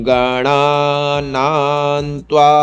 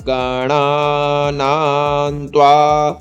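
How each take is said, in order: No difference in how they are said.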